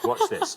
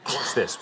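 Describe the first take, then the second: First: Jumps way up, laughing through it; playful laughing echo; laughing squeal. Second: Said in the usual way. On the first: Acted. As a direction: tease her with a giggling high repeat. Host teasing contestant's management line.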